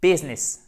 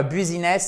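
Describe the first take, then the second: First: English "business", first vowel near é; correct English business. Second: "business" in three syllables, French u first; French mispronunciation of "business"; wrong French-style business. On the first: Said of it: "c'est business". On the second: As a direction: say "business" as bu-zi-ness, as a mistake. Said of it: "c'est pas business". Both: Shown as a demonstration.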